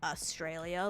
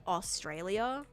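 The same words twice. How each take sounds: First: AUSTRALIA with the first vowel reduced, no U; local pronunciation. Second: AUSTRALIA with a full, rounded "aw" first syllable; wrong pronunciation. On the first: Australian streamer telling chat how locals say it, reduced first vowel. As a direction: say Australia as if it had no U, "uh-STRAY-lia". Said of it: "as if there's no U there". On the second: Streamer showing chat how locals don't say it, over-pronounced. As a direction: pronounce Australia with a clear opening "Aw". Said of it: "you don't say, like". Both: Shown as a demonstration.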